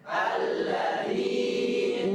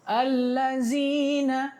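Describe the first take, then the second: First: The middle consonant is a soft dh sound. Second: The middle consonant is a buzzing z sound. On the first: The speaker calls it right. "contoh alladzin" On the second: The speaker calls it wrong. "banyak orang Indonesia dia baca zai"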